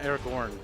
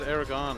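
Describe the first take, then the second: First: The last syllable has an R sound. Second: The last syllable has no R sound. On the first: "I don't know where the Gorn comes from" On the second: "I thought it was Aragon or something like that"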